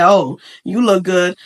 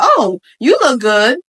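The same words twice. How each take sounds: First: Low, slow, dry compliment; unenthused tone. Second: Slow compliment with a lifted, interested "oh"; admiring tone. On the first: Showing how tone changes meaning, dry compliment. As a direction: say the praise low and slow, unimpressed. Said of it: "tone is everything". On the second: Showing how tone changes meaning, admiring compliment. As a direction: lift the praise so it sounds meant. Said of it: "See how the tone is different?". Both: Shown as a demonstration.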